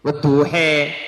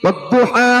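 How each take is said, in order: First: The final vowel is tilted toward e. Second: The final vowel is a plain open a. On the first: This follows another reading tradition. "boleh dibaca imalah namanya imalah sugro" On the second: This follows one reading tradition. "Ini Imam Asim"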